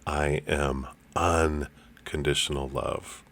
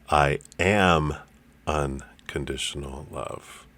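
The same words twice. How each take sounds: First: The word "unconditional" is stressed. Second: The word "am" is stressed.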